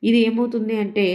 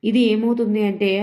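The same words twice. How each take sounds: Both takes have the same delivery.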